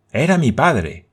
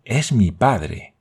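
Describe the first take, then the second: First: Exclaiming. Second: Slow, gentle and tender; sweet voice. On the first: Boy Roberto recognizes his father, exclaiming. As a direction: burst out with it, stunned and eager. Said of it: "exclamó Roberto Grant". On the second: Boy tells Thalcave about his father, slow and tender. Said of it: "dijo con voz dulce". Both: A narrator's reading.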